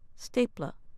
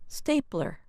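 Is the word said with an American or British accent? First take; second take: British; American. First: The ending sounds closer to British ah. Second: The ending has a strong American er sound.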